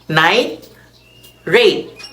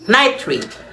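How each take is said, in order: First: It is said as two separate words. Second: It is said as one joined word.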